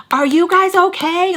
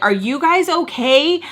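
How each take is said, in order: First: Higher, more urgent imitation of a stranger; insistent bystander. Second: Raised, drawn-out imitation of a stranger; stall bystander. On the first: People banging on stall door, high insistent call. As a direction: repeat the call with rising insistence. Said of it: "banging on the freaking door". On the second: People in next stall checking, slightly raised concerned call. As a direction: slowly call out a concerned question. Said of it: "on the stalls are like".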